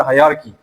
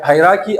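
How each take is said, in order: First: Hierarchy as "hai-YAR-ki"; second pronunciation variant. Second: Hierarchy as "HAI-ra-ki"; first pronunciation variant. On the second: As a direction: say hierarchy with "ra" in the middle. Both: Shown as a demonstration. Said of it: "it's the same thing".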